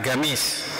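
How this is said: The word begins with a hard g sound.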